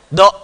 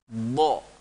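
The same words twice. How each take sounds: First: The sound is short and cut off abruptly. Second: The sound resonates and echoes inside the mouth. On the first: The speaker calls it wrong. "tidak do, tidak langsung begitu" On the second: The speaker calls it right. "menggema suaranya di dalam"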